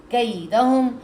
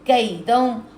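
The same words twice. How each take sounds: The two takes are said the same way.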